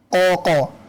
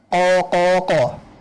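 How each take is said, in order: First: The long vowel is held for two beats. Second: The long vowel is held for three beats. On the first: "Dua harokat" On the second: "Tiga harokat"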